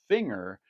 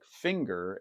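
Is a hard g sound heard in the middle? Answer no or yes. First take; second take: no; yes. First: The ng has no hard g sound after it. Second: A hard g sound follows the ng.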